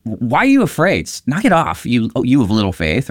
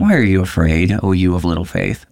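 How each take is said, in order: First: High, sharp scolding of frightened followers; stern rebuke. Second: Gentle, fond question; term of endearment. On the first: Jesus scolding his scared disciples, stern rebuke. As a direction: snap at them like a stern teacher. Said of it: "making a stern rebuke". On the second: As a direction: say it tenderly, like a nickname. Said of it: "almost like a term of endearment". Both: Shown as a demonstration.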